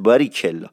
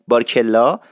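First: Said in the usual way. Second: بارکلا as "barkella", no i after r; familiar, contracted بارکلا; dropped i. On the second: Shown as a demonstration. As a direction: skip the middle vowel in بارکلا. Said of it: "این ایه اگه حذف بشه".

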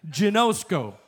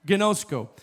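First: Careful "Ginosko", stress on the middle; Greek pronunciation. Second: "Ginosko" said gin-OH-sko with a hard g; corrected "Ginosko", hard g and stress on the middle; second try at "Ginosko" with a hard g; Greek pronunciation. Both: Shown as a demonstration. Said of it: "jacking the pronunciation".

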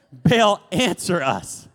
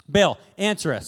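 First: Slow loud cry. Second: Said in the usual way. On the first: Shown as a demonstration. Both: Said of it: "Sorry, he didn't answer".

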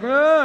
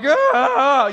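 First: Short, high, loud moan; mock moan. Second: Long, high, loud exaggerated moan; out-moan the other patient, hammed-up and drawn out; louder mock moan. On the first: Patient in the other bed calls for nurses, short mock moan. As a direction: imitate a patient moaning briefly in pain. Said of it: "hearing this guy moan". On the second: Patient competing for the nurses' attention, louder hammed-up moan. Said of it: "just a little bit louder".

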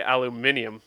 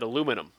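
First: ALUMINIUM in five syllables, stress on MIN; corrected British pronunciation. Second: ALUMINUM in four syllables, stress on LU; American pronunciation of aluminum. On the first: Correcting themself for laughing pupils, British pronunciation. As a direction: say "aluminium" pointedly with the -ee-um ending. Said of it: "they all just started laughing at me". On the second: Retelling the slip before a class, American pronunciation. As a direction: say "aluminum" the American way, ending -num. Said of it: "I said aluminum". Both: Retold or imitated.

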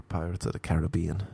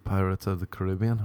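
First: "Caribbean" as ka-rib-BEE-an; stress on third syllable. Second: "Caribbean" as kuh-RIB-ee-un; stress on second syllable. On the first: Comparing film title pronunciations, "Caribbean" stressed on BEE. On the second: Comparing film title pronunciations, "Caribbean" stressed on RIB. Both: Shown as a demonstration. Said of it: "What do you say?".

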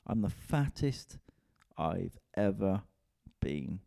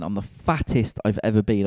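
First: Drawn out slowly, a word at a time; slow, spaced repeat. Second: Blurted out louder, like a confession. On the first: Comedian repeating his weight confession to listeners, slow and drawn out. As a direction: let each word land slowly and heavily. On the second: Comedian confessing his weight to listeners, loud blurt. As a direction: announce it with a punch. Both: Real, not acted.

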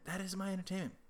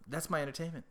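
First: "is" brought out, pitched higher; stress on IS. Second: Said in the usual way. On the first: Real, not acted. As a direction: insist on the word "is". Repeats it, emphasising is.

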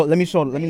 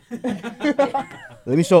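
First: Said in the usual way. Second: Drawn-out, very slow, laughing through the words, louder. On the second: Real, not acted. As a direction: stretch it out while laughing. Laughing while showing picture.

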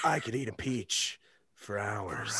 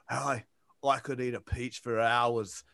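First: Low, slow, hushed creep; soft, low creepy-actor impression; creepy Nicolas Cage. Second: Low, soft Australian-accented impression; understated Aussie movie-star impression; Hugh Jackman. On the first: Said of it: "creepy Nicolas Cage". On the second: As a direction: lower and quieter, in an Australian accent. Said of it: "Hugh Jackman's like".

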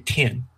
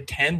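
First: "tin" with the vowel closed to i, like "tin"; ten said as tin. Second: "ten" with a clear open e, as in "pen"; default American ten. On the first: Showing a friend how others say ten, "tin" with a closed vowel. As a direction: let "tin" slide up to a short i. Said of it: "people say ten, they say tin". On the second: Explaining accents to a friend, "ten" said the default way. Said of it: "the most default American accent I can place, people say ten". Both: Shown as a demonstration.

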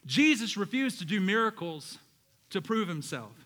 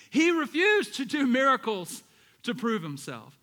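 First: Said in the usual way. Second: "refused" lifted higher, louder and slower; stress on refused. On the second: Shown as a demonstration. Preacher repeating the point, punching refused. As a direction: lean hard on "refused". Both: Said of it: "look at this".

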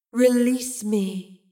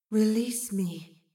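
First: Louder, very drawn-out eerie command; insistent otherworldly voice. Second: Slow, drawn-out eerie plea; otherworldly voice. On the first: Mysterious voice insisting to Astrid, loud and eerie. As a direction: call out slowly and forcefully, disembodied. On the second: Mysterious voice calling to Astrid, slow and eerie. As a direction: stretch the words out like a disembodied voice. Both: A narrator's reading.

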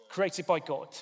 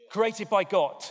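First: Said in the usual way. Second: Loud, punched "Created by God."; emphatic declaration. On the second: Shown as a demonstration. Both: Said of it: "It's like an in-your-face moment".

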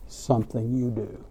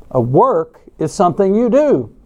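First: Said in the usual way. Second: "you" punched louder and higher; stress on YOU. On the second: Shown as a demonstration. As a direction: lean hard on the word "you". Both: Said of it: "with the emphasis on the word you".

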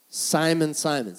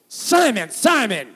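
First: Gentle "Simon, Simon", the second falling away; caring, compassionate. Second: High, loud shout of SIMON, falling each time; harsh scolding demo. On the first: Acted. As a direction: say "Simon, Simon" with measured care. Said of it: "So what kind of tone does he have?". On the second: Shown as a demonstration. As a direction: yell "Simon, Simon" as if telling him off. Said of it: "it just doesn't sound right".

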